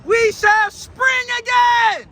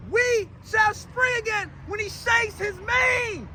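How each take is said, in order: First: High, loud, stretched proclamation; exultant preaching shout. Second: Slow, drawn-out proclamation without the volume; measured preaching repeat. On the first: Preacher exults in quoted line. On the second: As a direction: stretch each word deliberately. Repeats the line for effect. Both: Acted.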